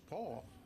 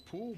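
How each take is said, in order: First: The name sounds like the name Paul. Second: The name rhymes with the word pool. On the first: The speaker calls it right. "spelled P O O L, pronounced Paul" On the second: The speaker calls it wrong. "We thought it was Pool"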